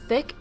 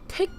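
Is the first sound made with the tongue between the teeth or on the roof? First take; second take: between teeth; roof. First: The first sound has the tongue between the teeth. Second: The first sound has the tongue touching the roof. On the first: "Thick is like your tongue is between your teeth" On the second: "your tongue is inside of your teeth, and it's like above, so it touches the roof of your mouth"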